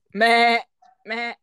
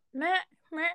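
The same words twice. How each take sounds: First: Loud, plain Filipino goat bleat; Philippine goat accent. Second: Higher-pitched European goat bleat; European goat accent. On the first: Demonstrating goat accents to a friend, loud Philippine bleat. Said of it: "Dito sa Pilipinas". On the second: Showing a friend how Europe's goats sound, high European bleat. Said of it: "in Europe daw". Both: Shown as a demonstration.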